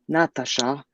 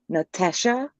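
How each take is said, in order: First: A native-language accent, rolled like the mother tongue. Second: An Australian accent, one A sounds like E. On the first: The speaker calls it right. "most accurately, like rolled from my mother's tongue" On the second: The speaker calls it wrong. "pronounced with the Australian accent... one of the A's is pronounced as an E"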